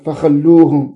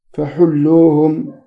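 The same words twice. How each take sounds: First: "فخلوهم" as fa-khal-loo-hum, with kh; خاء معجمة. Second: "فحلوهم" as fa-hul-loo-hum, with pharyngeal h; smooth throat h in "فحلوهم", short u after it; حاء مهملة مضمومة. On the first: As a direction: rasp the kh in "فخلوهم", short a after it. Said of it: "بالخاء المعجمة". («فخلوهم» بالخاء المنقوطة المفتوحة) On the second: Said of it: "أي بالحاء المهملة مضمومة". («فحلوهم» بالحاء غير المنقوطة مضمومة) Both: Shown as a demonstration.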